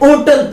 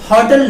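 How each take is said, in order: First: The word starts with a vowel, no h. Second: The word starts with an audible h sound. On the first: This was the old pronunciation. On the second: This is the modern pronunciation.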